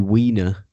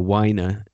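First: Weiner said as WEE-ner; first pronunciation of Weiner. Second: Weiner said as WHY-ner; alternative pronunciation of Weiner. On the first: Host unsure of writer Matthew's surname, Weiner as WEE-ner. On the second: Host correcting the writer's surname, Weiner as WHY-ner. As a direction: say Weiner with a long "i" in the first syllable. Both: Real, not acted. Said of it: "or Weiner".

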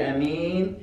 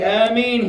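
First: Said in the usual way. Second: Raised, louder Ameen; misplaced congregational Ameen. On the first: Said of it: "you only say". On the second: Retold or imitated. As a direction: imitate a worshipper calling Ameen at the wrong moment. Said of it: "Somebody will say".

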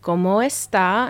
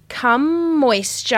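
First: Said in the usual way. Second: "Come moisture" slow and higher, each word stretched out; "Come moisture" as painfully careful English words for Spanish; child's mangled Spanish. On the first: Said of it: "And then I was like". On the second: Retold or imitated. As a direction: imitate a beginner's earnest, badly anglicised "Come moisture". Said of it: "She cannot roll her R's".

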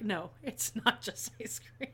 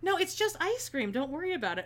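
First: "not" drawn out, slow and soft; stress on not. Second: A hint of a breezy British guy, higher on "No". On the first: Retold or imitated. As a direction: slowly insist on "not just ice cream". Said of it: "And I'm like". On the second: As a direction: shrug it off lightly like the customer. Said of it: "And then he goes".

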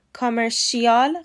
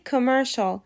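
First: کامرشیال with the wrong -shial ending; wrong pronunciation. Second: کامرشال ending -shal, ko-mer-shol; correct pronunciation. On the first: Teacher showing the wrong کامرشیال, -shial ending. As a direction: demo the mistaken کامرشیال, -shi-al. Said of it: "کامرشیال غلطه". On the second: Teacher giving the correct کامرشال, ko-mer-shol. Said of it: "تلفظ صحیح کامرشال". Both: Shown as a demonstration.

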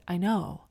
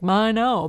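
First: Said in the usual way. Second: Higher, louder, jaunty "I know". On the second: Shown as a demonstration. Replying to a skin compliment, jaunty. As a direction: toss it off with cheeky self-assurance. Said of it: "saying it in a jaunty way".

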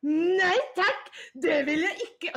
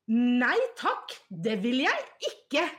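First: Higher and louder laughing yell; hammed-up shriek through laughter; mock scream. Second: Mock yell, a bit louder; mild mock shout; retold scream. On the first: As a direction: shriek it while cracking up. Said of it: "bare skriker". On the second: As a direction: imitate a caps-lock shout, half-hearted. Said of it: "så hun skriker da".

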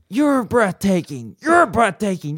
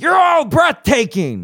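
First: Keanu impression. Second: Much higher, shouted put-on voice; Keanu shouting. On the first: Co-host asked for Winston, gives Keanu voice. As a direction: gush like Keanu on stage. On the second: Keanu impression peaking into a loud shout. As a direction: shout it to the whole crowd. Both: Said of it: "I want you to do Winston".

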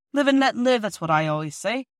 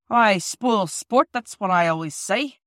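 First: Put-on old workman voice. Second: Slow stern foreman voice. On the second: Acted.

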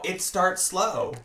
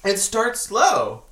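First: Slow, deliberate warning; slow ominous. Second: Slow, louder warning; slow ominous louder. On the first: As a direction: draw it out like a warning. Ominous warning repeated slowly. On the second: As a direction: spell it out slowly and firmly. Repeat with more force. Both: Pretend.

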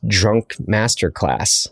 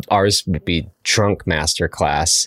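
First: Put-on slow, drawn-out "Drunk Masterclass" like a show title; grand title, slowly. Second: "Ours" set apart from the official series, slowly; stress on Ours. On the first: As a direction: announce "Drunk Masterclass" as a series name, slowly. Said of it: "Maybe that's a whole new series". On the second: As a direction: lean on "Ours", then say "Drunk Masterclass" slowly. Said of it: "there's that big official masterclass series". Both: Shown as a demonstration.

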